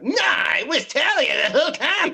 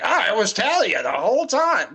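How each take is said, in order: First: High, loud whining mockery; mock the twist with a whining yell; whiny mock shout. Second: Mocking. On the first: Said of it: "be like". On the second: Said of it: "And I'm like".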